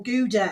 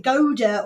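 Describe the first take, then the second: First: "Gouda" as GOO-duh, oo first; GOO-duh pronunciation. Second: "Gouda" as GOH-duh, long o first; GOH-duh pronunciation. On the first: Host repeating the cheese question, "Gouda" said GOO-duh. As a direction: open "Gouda" with the sound of goo. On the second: Host repeating the cheese question, "Gouda" said GOH-duh. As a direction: open "Gouda" with the sound of go. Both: Shown as a demonstration. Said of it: "that is the question".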